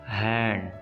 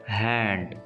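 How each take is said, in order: The two takes are said the same way.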